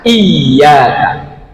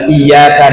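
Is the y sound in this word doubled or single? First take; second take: doubled; single. First: The y sound is doubled and held longer. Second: The y sound is single and short. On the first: Only to God. The speaker calls it right. "ya-nya ditekan bacanya" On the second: Only to the morning sunlight. The speaker calls it wrong. "ya-nya tanpa tasydid, bacanya lurus"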